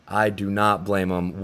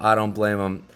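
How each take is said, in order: First: Slow down and lean on "do not"; stress on do not. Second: Said in the usual way. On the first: Real, not acted. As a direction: do not said slowly and firmly. Slower repeat for emphasis.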